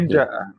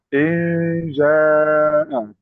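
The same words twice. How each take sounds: First: The word is read straight without lengthening. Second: The long vowel is drawn out and held. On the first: The speaker calls it right. "Injaa langsung" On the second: The speaker calls it wrong. "di hadis jangan baca injaa"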